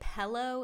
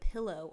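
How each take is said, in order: First: The word is said with an altered vowel. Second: The word is said with its standard vowel. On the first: The speaker calls it wrong. "I really hate when people say pillow" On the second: The speaker calls it right. "instead of pillow"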